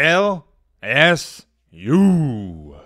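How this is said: It is said in a showy, dramatic way. The speaker calls it wrong. "Why in the world did I say it like that? ... It sounded way cooler in my head. ... the corniest thing I've said"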